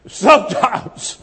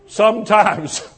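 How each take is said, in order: First: Sometimes stretched out slowly, falling at the end; slow, drawn-out Sometimes. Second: Said in the usual way. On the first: Shown as a demonstration. Pastor repeats the word to make the church wait for it, slow and weighty. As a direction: linger on Sometimes.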